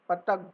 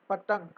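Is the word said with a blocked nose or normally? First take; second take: blocked nose; blocked nose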